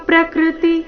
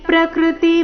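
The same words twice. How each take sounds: Both takes have the same delivery.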